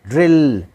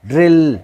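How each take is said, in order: The two takes are said the same way.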